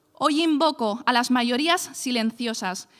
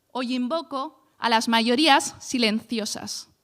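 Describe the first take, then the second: No difference in how they are said.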